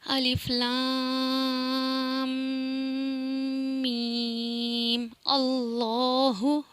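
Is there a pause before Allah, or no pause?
pause. There is a pause before Allah.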